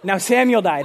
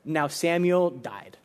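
First: Abrupt retold reading, no lingering; sudden announcement. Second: Slow, solemn quoted line; somber reading. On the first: Retelling the shock of the devotion's words, abrupt. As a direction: drop the news suddenly. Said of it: "just a sudden, like". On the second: Retold or imitated. Reading a devotion's first words to listeners, slow and somber. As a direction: read slowly, lower and subdued. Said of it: "very first words I read".

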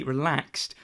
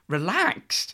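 First: Said in the usual way. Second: "Relaxed?" repeated higher with a questioning rise. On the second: Real, not acted. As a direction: query the word "relaxed", lifting the pitch at the end. Queries the word just read.

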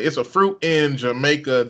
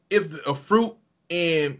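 First: Said in the usual way. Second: Put-on slow, half-hearted Somali accent; tentative Somali accent. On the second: Quoting a Somali teammate, tentative accent. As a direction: start a Somali accent, hesitantly. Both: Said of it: "I don't wanna do the accent".

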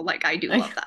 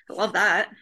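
First: Earnest, really meaning it; sincere. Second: Dry, sarcastic-sounding; sounds sarcastic. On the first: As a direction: say it like you truly mean it. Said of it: "but that was actually real". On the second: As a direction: say it like you don't mean it. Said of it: "it sounded like sarcasm". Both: Real, not acted.

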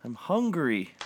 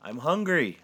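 First: High, loud groaning complaint; lightly groaned protest. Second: High, loud defensive cry; raised, needy protest. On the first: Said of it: "I groaned". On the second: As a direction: blurt it out in self-defence. Santa defends eating the birds. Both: A narrator's reading.

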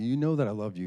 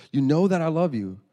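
First: Mildly puzzled insistence; perplexed. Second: High, loud acted insistence; exasperated. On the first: Retold or imitated. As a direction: sound a touch baffled, imitating a girl. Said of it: "very perplexed. She's like". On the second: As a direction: protest like a fed-up daughter. Girl fed up with repeated question.

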